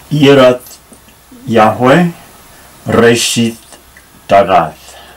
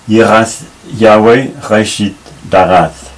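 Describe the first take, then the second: First: The R is a plain, non-throaty sound. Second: The R is a throaty, French-style sound. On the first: The speaker calls it wrong. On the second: The speaker calls it right.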